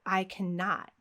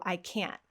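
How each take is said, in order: First: "cannot" in full, both syllables clearly sounded; clarify with a deliberate, uncontracted "cannot"; clarifying emphasis. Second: "can't" in one syllable, T unreleased; soft "I can't" with the T stopped in the throat; quiet contracted "can't", no T burst. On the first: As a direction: spell out the negative in "cannot". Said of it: "when we're adding extra emphasis". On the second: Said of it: "we would still use the contraction". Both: Shown as a demonstration.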